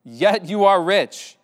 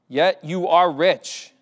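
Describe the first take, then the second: First: Louder, slower, stress on are in Yet you are rich; preacher repeating the key phrase; emphatic repeat. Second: Yet you are rich, slow with weight on are; slow down and lean on are; scripture line read deliberately; slow emphatic reading. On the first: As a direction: repeat it to drive it home, hitting are. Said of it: "repeats the line with more weight". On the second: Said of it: "Yet you are rich (repeated)". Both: Acted.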